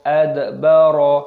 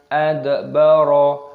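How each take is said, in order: The two takes are said the same way.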